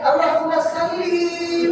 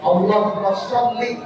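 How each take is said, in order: First: The s sound is light and plain. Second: The s sound is heavy and emphatic. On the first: It means kill. The speaker calls it wrong. "Salli itu artinya bunuh" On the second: It is a blessing upon the Prophet. The speaker calls it right. "pakai shad"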